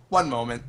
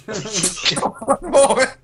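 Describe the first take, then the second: First: Said in the usual way. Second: High, drawn-out words through laughter; laughing. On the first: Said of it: "look at him and go". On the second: Acted. Player repeating the character's excuse to the enemies, laughing. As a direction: stretch it out while cracking up. Repeats the line while cracking up.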